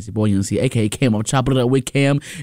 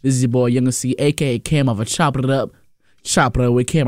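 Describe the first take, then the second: First: It is said fast. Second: It is said slowly.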